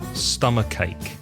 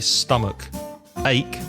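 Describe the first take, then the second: First: The k sound runs straight into the next word. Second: The two words are said with a break between. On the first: The speaker calls it right. "we say" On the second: The speaker calls it wrong. "we don't say"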